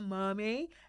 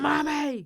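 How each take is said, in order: First: It is said softly and sweetly. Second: It is bellowed loudly, like a shout.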